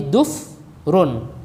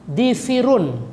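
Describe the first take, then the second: First: A u sound, then no second vowel. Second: Both early vowels are i sounds. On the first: "bidomin fasukun"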